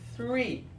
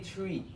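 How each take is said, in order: First: The word begins with a th sound. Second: The word begins with a plain t sound. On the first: The speaker calls it right. "It's three. I think we got the th sound" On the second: The speaker calls it wrong. "Don't say three"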